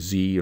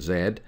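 First: It is said with an American pronunciation. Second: It is said with a British pronunciation.

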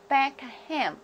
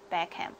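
First: The name is said at a slower pace. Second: The name is said at a faster pace.

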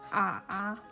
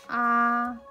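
First: The pitch dips low, then rises. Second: The pitch stays high and level. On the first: "üçüncü ton" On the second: "birinci ton"

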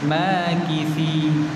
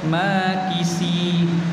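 First: The middle consonant is a 'th' sound. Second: The middle consonant is an 's' sound. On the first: The speaker calls it right. "Jadi kita betulkan dia, dia ada jadi tha tha" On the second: The speaker calls it wrong. "Tak boleh kita baca makisi. Kisi salah"

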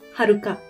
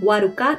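First: The name begins with an h sound. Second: The name begins with a w sound. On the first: The speaker calls it right. "tapi Haruka" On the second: The speaker calls it wrong. "ini bacanya bukan Waruka"

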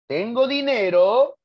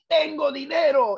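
First: The voice rises at the end like a question. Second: The voice is raised and emphatic like an exclamation. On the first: The speaker asks whether they have money. "es interrogativa" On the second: The speaker exclaims with strong feeling. "es exclamativa"

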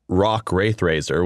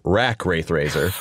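First: The first name is said like 'rock'. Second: The first name is said like 'rack'. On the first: The speaker calls it right. "which is the correct pronunciation as far as I'm told" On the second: The speaker calls it wrong. "I auditioned as Rack Wraithrazer"

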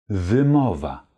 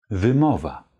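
No difference in how they are said.

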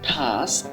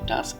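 First: The final k is aspirated like kh. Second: The final k is plain without aspiration. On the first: The speaker calls it right. "এখানে সর্বশেষ যে sound আসবে সেটা খ sound আসবে" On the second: The speaker calls it wrong. "আজকের পর থেকে এটি টাস্ক না"

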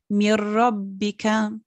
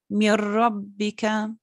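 First: The n merges into a doubled r sound. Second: The n merges into a doubled r sound.

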